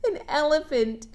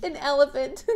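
First: Chuckling through the correction; amused self-correction; laughing at own slip. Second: Said in the usual way. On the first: Real, not acted. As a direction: laugh at your misreading. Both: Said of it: "[name]'s reading sideways".

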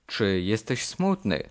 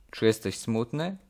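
Both takes have the same delivery.

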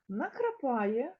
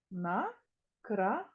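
First: Said in the usual way. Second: Накрапає stretched as На-кра-па-є; slow syllable split. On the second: Shown as a demonstration. Teacher slowly syllabifying for children. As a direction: drag it out, one syllable at a time. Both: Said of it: "Скільки складів?".

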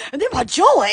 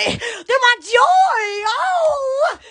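First: Said in the usual way. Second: Drawn-out joyful cry. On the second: Real, not acted.

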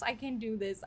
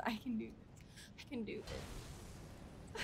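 First: Said in the usual way. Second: Soft, fading whisper to herself; whispered self-pep talk. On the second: Real, not acted. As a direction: breathe it out to calm down.

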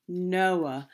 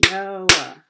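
First: Said in the usual way. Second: Noah in two loud beats, No-ah; syllable by syllable. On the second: Shown as a demonstration. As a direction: punch out both syllables of Noah. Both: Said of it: "how many parts a word can be broken into".

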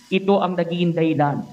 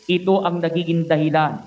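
Both takes have the same delivery.

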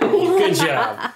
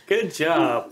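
First: High squeaky laughing "good job"; laughing praise. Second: Said in the usual way. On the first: Real, not acted. Laughing praise after correct guess.

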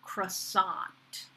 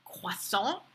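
First: "croissant" as kruh-SAHNT, with a sounded t; American pronunciation. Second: "croissant" in French, kwa-SON with nasal ending; French pronunciation. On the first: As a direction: open "ah" and final nt in "croissant". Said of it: "is called a". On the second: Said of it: "even the French pastry". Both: Shown as a demonstration.

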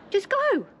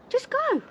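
First: High shout telling them to go; angry shout. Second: Even higher pitched shout; angry shout. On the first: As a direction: yell it at them to leave. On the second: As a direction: yell it higher still, fed up. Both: Real, not acted. Ordering agents off property.

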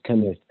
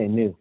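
First: Knuth said as "kuh-NOOTH", two syllables; Knuth with an audible K at the front; sounded-K Knuth. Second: Knuth said as "nooth", one syllable; Knuth beginning on the N sound; silent-K Knuth. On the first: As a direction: pronounce the K in Knuth before the N. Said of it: "I think it's pronounced Knuth". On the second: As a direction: drop the K from Knuth. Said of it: "I wanna say Knuth". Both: Shown as a demonstration.

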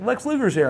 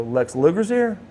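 First: High-pitched, imitated breaking of big news; acted-out eager announcement; excited announcement. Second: Surprised echo. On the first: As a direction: share thrilling gossip, voice raised in pitch. Staff announce big news to him. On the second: Retold or imitated. He echoes the news in surprise.

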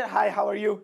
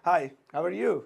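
First: Rushed. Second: Slow and clear. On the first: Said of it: "अ, नहीं भैया". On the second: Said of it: "जैसे आपको बोलना है". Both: Shown as a demonstration.

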